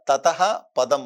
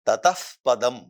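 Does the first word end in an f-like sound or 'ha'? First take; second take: ha; f-like. First: The first word ends with a 'ha' sound. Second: The first word ends with an f-like sound. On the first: The speaker calls it wrong. "அப்படின்னு சொல்லக்கூடாது" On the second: The speaker calls it right. "அப்படின்னு சொல்லணும்"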